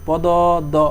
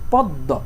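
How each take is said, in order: First: The word is split into separate syllables. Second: The word is said smoothly as one unit. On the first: The speaker calls it wrong. "এভাবে কি কখনো বলো না" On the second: The speaker calls it right. "কি বলো"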